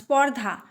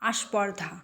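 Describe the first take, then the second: First: The word starts directly with the consonant cluster. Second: An extra vowel is added before the consonant cluster.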